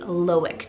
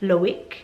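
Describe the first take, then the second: First: The name is said with an English pronunciation. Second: The name is said with a French pronunciation. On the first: This is how it is said here. "the anglicized version" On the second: This is how it is said in Europe. "pronounced a little bit different if you move over to Europe"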